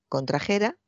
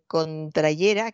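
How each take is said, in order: First: The middle consonant is a throaty j sound. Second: The middle consonant is a y sound. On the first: The speaker calls it right. "se conjuga igual que traer" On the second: The speaker calls it wrong. "Pues aquí este contrayera"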